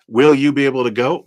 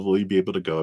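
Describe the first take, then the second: First: Will you be able to go? louder and quicker, rising on will; eager question. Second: Said in the usual way. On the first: Shown as a demonstration. Tarot reader asks the cards the viewer's question, loud and eager.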